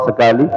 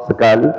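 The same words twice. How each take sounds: No difference in how they are said.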